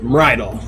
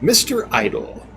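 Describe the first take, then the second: First: The name is said fast, run together. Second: The name is said slowly, as two words.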